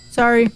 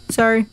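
Both takes have the same delivery.

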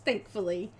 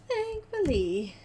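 First: Said in the usual way. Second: THANKFULLY stretched out slow and high; playful echo. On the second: Real, not acted. Relieved the missing order is coming, playful high echo on "Thankfully".

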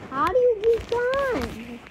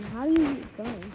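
First: High, slow, drawn-out call; impatient raised-pitch question; insistent repeat. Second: Said in the usual way. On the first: Real, not acted. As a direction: stretch it out high to demand an answer.

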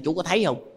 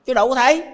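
First: Said in the usual way. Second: High emphatic answer. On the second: Shown as a demonstration. Rhetorical answer to the man.

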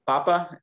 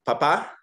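First: PApa, first syllable stressed. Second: PaPA, final syllable stressed; stress on last syllable. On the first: Teacher asks if everybody hears the difference, papa stressed on first syllable. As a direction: put the weight on the start of papa. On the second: Teacher asks if everybody hears the difference, papa stressed on last syllable. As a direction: put the weight on the end of papa. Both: Shown as a demonstration. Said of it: "hear the difference between".

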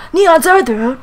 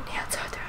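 First: Loud, high exclamation; hammed-up shouted name; dramatic call. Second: Very soft whisper; barely voiced repeat; hushed echo. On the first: Reading out nonsense name. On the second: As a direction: whisper the name like a faint echo.

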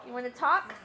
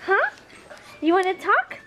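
First: Said in the usual way. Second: Pet talk. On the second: Real, not acted. Owner coaxing her dog to bark back, high pet talk. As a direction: coo it up high at the pup.

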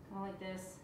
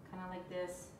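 Both takes have the same delivery.

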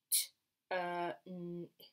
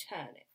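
First: "T, uh, n, ip" as separate sounds; sounded out. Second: Said in the usual way. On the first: Shown as a demonstration. Teacher segments a tricky word for children, sounded out. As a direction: break it into "T", "uh", "n", "ip". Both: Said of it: "only makes one sound".

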